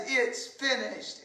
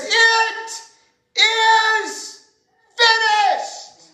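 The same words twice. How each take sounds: First: Soft, spent final words; quiet. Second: High, loud, drawn-out cry with long pauses. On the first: Jesus at his last breath, soft and spent. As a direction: let it fall away almost unheard. Dying words set against the cry. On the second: Jesus crying out from the cross, loud and high. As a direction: cry it out to the heavens, word by word. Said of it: "he cries with a loud voice". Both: Acted.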